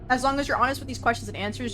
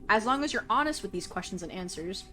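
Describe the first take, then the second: First: It is read at a quick pace. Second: It is read at a slow pace.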